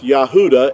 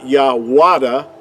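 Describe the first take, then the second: First: The middle of the word has a U sound. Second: The middle of the word has a W sound. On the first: The speaker calls it right. "it's Yahuda" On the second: The speaker calls it wrong. "it's not Yahwada. See with the W"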